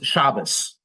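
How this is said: The word ends with an S sound. This is the Yiddish pronunciation. "becomes Shabbos"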